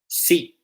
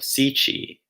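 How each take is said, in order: First: It ends cleanly on a consonant. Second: It ends with an added vowel sound. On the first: The speaker calls it right. "there's no need for that cheeky extra vowel sound at the end" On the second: The speaker calls it wrong. "Brazilian Portuguese speakers will probably say something like"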